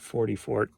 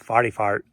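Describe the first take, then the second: First: It is said with a plain general accent. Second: It is said with a St. Louis accent. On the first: "It's not" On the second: "Say it like you're in Saint Louis"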